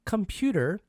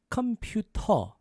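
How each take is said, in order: First: It is said with an English final R. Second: It is said without the final R sound.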